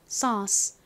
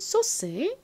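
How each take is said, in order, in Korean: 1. 미국식이에요. 'uh' 모음이 들어가요. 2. 한국식이에요. 'so-seu'처럼요. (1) "미국식 발음으로는 에이유가 어 소리가 나니까" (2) "한국식으로는"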